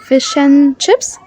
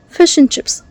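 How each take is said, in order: First: The word and is said as an, no d. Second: The word and is said as a quick n. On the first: "You can drop the D" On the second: "make the N sound a quick N, a fast N"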